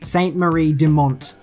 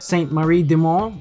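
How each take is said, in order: First: The name is said with English pronunciation. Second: The name is said with French pronunciation. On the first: The speaker calls it wrong. "I really do cringe every single time I hear someone say" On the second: The speaker calls it right. "if you don't say it like that, then you are wrong"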